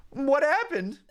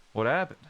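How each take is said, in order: First: High, worried sidekick asking; partner Mudkip voice. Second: Said in the usual way. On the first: Acted. Mudkip partner asking the fallen Riolu, high and worried. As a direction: ask it high and anxious like the Mudkip.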